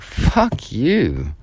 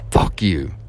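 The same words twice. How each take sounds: First: It is said in an indignant, challenging tone. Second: It is said in a cold, hateful tone. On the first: The listener has overstepped and is being challenged. "who the hell do you think you are?" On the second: The speaker hates the listener. "I hate you"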